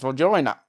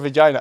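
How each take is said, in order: First: The word is said in an Australian accent. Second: The word is said in the speaker's normal accent.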